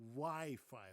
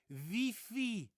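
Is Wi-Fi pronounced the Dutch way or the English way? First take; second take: English; Dutch. First: The word has an English pronunciation. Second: The word has a Dutch pronunciation. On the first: The speaker calls it right. "We say Wi-Fi" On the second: The speaker calls it wrong. "But the Dutch say Wi-Fi"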